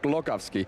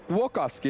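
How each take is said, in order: First: The sound after the G is like L. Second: The sound after the G is like W. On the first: The speaker calls it wrong. "not Glogowski" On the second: The speaker calls it right. "the little thing through it is pronounced almost like a W"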